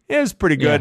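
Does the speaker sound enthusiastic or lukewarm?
lukewarm. The phrase sounds lukewarm and unenthusiastic. It was only mediocre. "Is like a 3 or 4"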